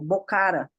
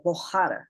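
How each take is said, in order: First: The middle consonant is a hard K sound. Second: The middle consonant is a strong H sound. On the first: The speaker calls it wrong. "a gente tem mania de falar" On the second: The speaker calls it right. "na verdade é Bohara"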